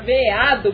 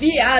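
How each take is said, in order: First: The first vowel sounds like e. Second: The first vowel sounds like i. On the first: "A palavra veado" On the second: "quando se diz viado, ... fala o e com som de i"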